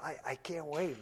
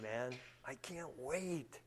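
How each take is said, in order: First: Said in the usual way. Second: Softer and slower, almost to himself; softer, slow longing. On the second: Real, not acted. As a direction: let the longing sink in quietly.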